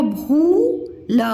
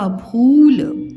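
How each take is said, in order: First: भूल split, with a long rising भू, then ल; sounded out. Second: भूल as one word, louder, long ऊ; blended word. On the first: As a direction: sound out भूल in two separate pieces. (भूल को अलग-अलग तोड़कर) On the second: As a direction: join भूल up and stretch its vowel firmly. (भूल एक साथ, लंबे ऊ से) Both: Shown as a demonstration. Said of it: "मैं अलग-अलग बताया करूँ".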